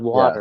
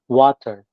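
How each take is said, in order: First: The middle T is softened like a quick D. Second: The T in the middle is clearly pronounced. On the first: It sounds Californian. "instead of" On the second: It sounds British or East Coast. "Why are you pronouncing the T? You sound more British"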